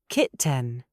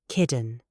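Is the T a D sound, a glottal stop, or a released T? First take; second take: released T; D sound. First: The T is sharply released. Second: The T sounds like a soft D. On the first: "British formal ... We release the T" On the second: "American ... They use the D sound"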